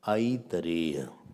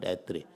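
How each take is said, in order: First: The word is said in four full syllables. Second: The word is clipped to two syllables. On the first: The speaker calls it right. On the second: The speaker calls it wrong. "not Atre"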